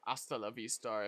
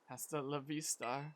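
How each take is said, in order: First: The h at the start is silent. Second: The h at the start is sounded.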